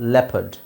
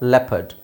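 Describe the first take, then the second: First: The second syllable has a weak schwa vowel. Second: The same.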